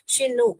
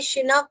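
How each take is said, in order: First: The second syllable sounds like 'nook'. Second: The second syllable sounds like 'nock'. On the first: The speaker calls it right. "Sorry, नॉक नहीं है" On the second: The speaker calls it wrong. "नॉक नहीं है"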